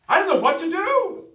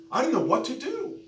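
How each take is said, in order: First: Very high, full-force imitated wail; retold anguished scream. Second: High, loud imitated wail of helplessness; retold desperate cry. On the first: Preacher acts out young woman's breaking point, screaming desperately. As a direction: scream her helplessness at the top of the voice. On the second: Preacher acts out young woman's confusion, loudly desperate. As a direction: voice her desperation, raised and high.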